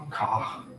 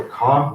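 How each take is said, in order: First: "car" as "cah", the final R dropped; drawn-out New York "car", ending on the vowel; New York pronunciation. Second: Said in the usual way. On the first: Shown as a demonstration. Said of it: "by replacing R with R". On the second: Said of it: "car may sound like car".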